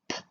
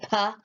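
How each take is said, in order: First: The consonant is clipped short with no added vowel. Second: The consonant is followed by an added 'uh' vowel. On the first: The speaker calls it right. "We have to make it the shortest possible sound" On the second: The speaker calls it wrong. "we don't say puh"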